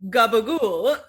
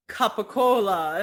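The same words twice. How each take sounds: First: Gabagool, g and b in place of k and p; imitated deli guy repeating gabagool, last vowel dropped; New York Italian pronunciation. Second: Capicola in four full syllables; imitated customer repeating capicola with crisp k and p; Italian customer's pronunciation. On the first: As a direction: insist on gabagool with a long "ool". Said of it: "And he's like". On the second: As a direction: insist on capicola, sounding the final "la". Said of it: "And the guy's like".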